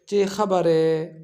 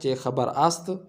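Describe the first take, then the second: First: The verb is reduced to a short 'e' ending. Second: The verb is pronounced fully as 'ast'. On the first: This is how people say it in everyday speech. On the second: This is the formal written form.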